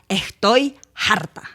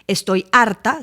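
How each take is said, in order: First: The h in harta sounds like j. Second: The h in harta is silent.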